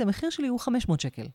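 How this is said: The pitch falls at the end like a statement. The speaker sounds assertive and confident. The speaker calls it right. "יורד. אינטונציה יורדת, אינטונציה אסרטיבית"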